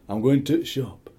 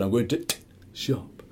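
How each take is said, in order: First: "going to shop" with the article cut to a silent catch; drawn-out Yorkshire "to shop", the "the" swallowed; swallowed T apostrophe. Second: "to t- shop" with a separate, spoken T; mock sounded-out T. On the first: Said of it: "the flaming T apostrophe". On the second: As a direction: say the "t-" as its own sound before "shop". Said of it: "We've never ever said". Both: Shown as a demonstration.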